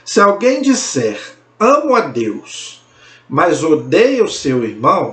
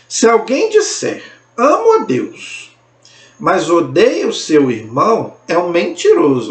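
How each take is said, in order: First: It is read at normal speed. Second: It is read very slowly.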